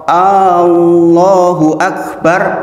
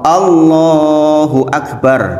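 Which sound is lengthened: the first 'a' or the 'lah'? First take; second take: first a; lah. First: The first 'a' of Allah is drawn out long. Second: The 'lah' part of Allah is drawn out long. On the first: It asks whether Allah is the greatest. The speaker calls it wrong. "A-nya panjang" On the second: Allah is the greatest. The speaker calls it right. "Allahnya yang panjang"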